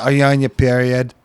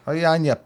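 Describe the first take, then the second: First: Put-on weak Boston accent, barely there; bad Boston accent. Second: Put-on Boston accent retry, higher pitched. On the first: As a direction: try a Boston accent and miss. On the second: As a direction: have another go at the Boston accent. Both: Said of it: "That was a bad Boston accent".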